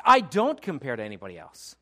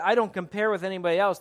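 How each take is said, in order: First: Emphatic, loud, assured declaration; total change of tone. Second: Insecure claim, raised and louder; higher-pitched, insecure insistence. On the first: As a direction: punch the opening, then let it drop. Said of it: "It's a total change of tone". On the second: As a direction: protest it a little too insistently. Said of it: "There's the insecure". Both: Shown as a demonstration.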